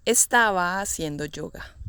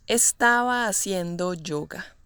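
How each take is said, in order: Both takes have the same delivery.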